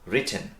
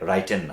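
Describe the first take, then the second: First: The first syllable has a short 'i' vowel. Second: The first syllable has a long 'ai' vowel. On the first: The speaker calls it right. "উচ্চারণগত বিষয়টা মনে রাখতে হবে" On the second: The speaker calls it wrong. "রাইটেন না"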